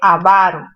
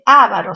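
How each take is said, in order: First: The stress is on the second syllable. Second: The stress is on the first syllable. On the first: The speaker calls it right. "se dice avaro. Es una palabra grave terminada en vocal" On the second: The speaker calls it wrong. "No se dice avaro"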